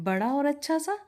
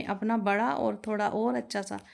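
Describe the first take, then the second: First: "बड़ा और अच्छा सा" lifted high into a rising question; incredulous echo question. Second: Said in the usual way. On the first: A narrator's reading. Son doubting father's plan, incredulous rising question on "बड़ा और अच्छा सा".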